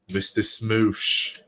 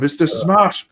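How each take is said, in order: First: The name's vowel sounds like 'oo' in smoosh. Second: The name's vowel sounds like 'a' in smash. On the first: The speaker calls it wrong. "It'd be like Barry mispronouncing Mister Smash's name" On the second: The speaker calls it right. "actually said Mister Smash's name right"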